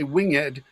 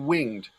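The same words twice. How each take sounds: First: The ending is a separate second syllable. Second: The ending joins the word as one syllable. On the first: The speaker calls it wrong. "you don't say winged" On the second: The speaker calls it right. "you say winged"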